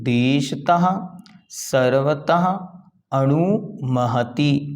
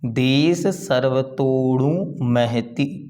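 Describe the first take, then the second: First: Each word is said separately and in full. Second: The words are run together into one flow. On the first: "अलग अलग करेंगे" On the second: "पहले उच्चारण देखें।"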